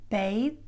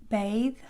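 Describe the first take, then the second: The two takes are said the same way.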